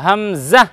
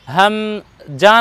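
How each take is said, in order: First: হামজা ending in a buzzing "za"; buzzed z in the last syllable of হামজা; correct za ending. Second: হামজা ending in a hard "ja"; hard j in হামজা, after a pause; wrong ja ending. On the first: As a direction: say হামজা as "ham-za". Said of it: "জা বর্ণ লাগাবো". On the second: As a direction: say হামজা as "ham-jaa", split slowly. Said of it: "নয়". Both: Shown as a demonstration.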